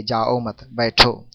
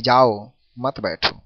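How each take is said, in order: First: जाओ मत run together, a break, then बैठो alone; group जाओ with मत, pause, then say बैठो; pause after मत. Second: जाओ alone, a break, then मत बैठो run together; pause after जाओ. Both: Shown as a demonstration. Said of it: "स्वर के उतार चढ़ाव या बोलने के लहजे".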